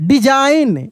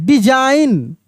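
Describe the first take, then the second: The two takes are said the same way.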